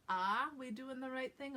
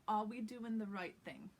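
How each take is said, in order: First: "Ah" wide open and higher, for are; Boston ah. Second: "are" as a rounded aw with no R; New York aw. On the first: Teacher shows the mistake to avoid, Boston ah. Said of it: "sounds a little bit more like Boston". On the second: Teacher models the practice line, New York aw. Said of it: "So aw". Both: Shown as a demonstration.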